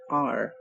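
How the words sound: It is said the American way, with an r-sound.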